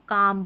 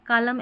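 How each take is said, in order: First: The L sound is left out. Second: The L sound is clearly pronounced. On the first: The speaker calls it right. "इसको काम पढ़ेंगे" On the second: The speaker calls it wrong. "ऐसे नहीं पढ़ रहे"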